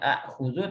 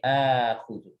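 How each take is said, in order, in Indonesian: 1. Setelah vokal pembuka ada hamzah. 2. Vokal pembuka dipanjangkan. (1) "bukan akhudhu" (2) "hamzah yang kedua dijadikan mat mat badal"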